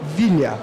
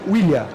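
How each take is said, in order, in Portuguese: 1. A palavra começa com som de V. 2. A palavra começa com som de W. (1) "ela passa do W para o V" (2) "ela passa do W para o V"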